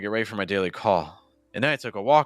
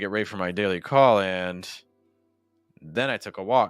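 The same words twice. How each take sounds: First: The pause falls after 'call', before 'and'. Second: The pause falls after 'and', not before it. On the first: "if I put the break on call" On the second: "Compare that with a break on and"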